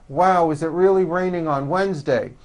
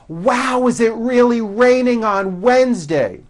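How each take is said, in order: First: It is said with flat lips, sounding mumbled. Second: It is said with wide, clear articulation.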